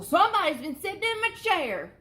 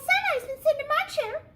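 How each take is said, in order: First: It is said in a great big voice. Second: It is said in a wee little voice.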